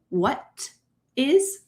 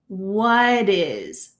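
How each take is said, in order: First: The T in 'what' is a clear T. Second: The T in 'what' sounds like a soft D. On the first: "Am I saying what is? Nope" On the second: "This T is going to change to a D sound in American English"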